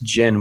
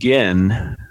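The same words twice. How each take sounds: First: The word begins with a soft j sound. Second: The word begins with a hard g sound. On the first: The speaker calls it right. "is pronounced Gin with a soft G" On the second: The speaker calls it wrong. "it is not pronounced Gin with a hard G"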